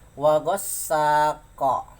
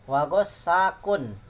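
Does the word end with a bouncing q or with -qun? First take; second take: bouncing q; -qun ending. First: The word stops on q with a bouncing echo. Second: The word ends smoothly with the full -qun ending. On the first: The reader stops at the end of the verse. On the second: The reader continues without stopping.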